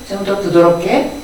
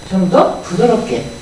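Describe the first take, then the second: No difference in how they are said.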